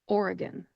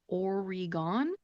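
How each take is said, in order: First: The last syllable has a reduced schwa vowel. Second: The last syllable has a full vowel. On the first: The speaker calls it right. "The E in the middle of the word is a schwa type vowel sound" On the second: The speaker calls it wrong. "it might look like you should pronounce it Oregon"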